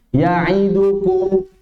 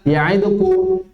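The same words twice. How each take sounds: First: The vowels are given their full measured length. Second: The vowels are rushed and clipped short.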